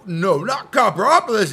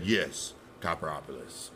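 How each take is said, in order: First: Higher, louder protesting inner voice; the other half of his head objects, higher; arguing other self. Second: Lower, much softer, final; low insistent reply. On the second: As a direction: settle it quietly and low. Inner argument, reply. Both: Retold or imitated.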